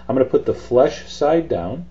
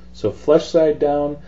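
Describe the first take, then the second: First: Said in the usual way. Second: Slow, firm "So flesh side down"; emphatic repeat. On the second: Shown as a demonstration. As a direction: stress each word of "So flesh side down" slowly.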